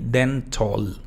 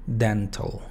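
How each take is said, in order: First: The last syllable has a full vowel. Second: The last syllable has a reduced vowel. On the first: The speaker calls it wrong. "no se pronuncia la O ni la A" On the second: The speaker calls it right. "Simplemente la T y la L"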